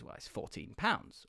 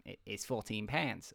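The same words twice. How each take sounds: First: Said in the usual way. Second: Put-on low, soft go at an Australian accent; attempted Australian accent. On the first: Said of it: "I can't do any other parts". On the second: Bakery man giving a customer the price, attempted Australian accent. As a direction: have a half-successful stab at Australian. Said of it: "first sentence in his accent".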